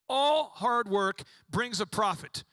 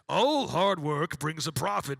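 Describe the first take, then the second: First: It is said in an ordinary voice. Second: It is said in a deep deity voice.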